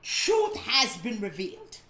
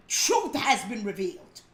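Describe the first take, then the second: First: Truth hit hard, rising at the end; emphatic rising repeat; stress on Truth. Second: Truth said through a laugh; light laughing declaration; laughing proclamation. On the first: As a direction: lean on Truth, lift at revealed. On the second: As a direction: chuckle as you proclaim Truth. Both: Shown as a demonstration. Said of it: "Let me say it again".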